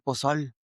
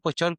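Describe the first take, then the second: First: The middle consonant is an 's' sound. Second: The middle consonant is a 'ch' sound. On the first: It is the usual name of the drink. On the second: It mocks how the sellers said the word.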